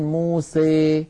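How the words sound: The final vowel leans strongly toward 'ee'.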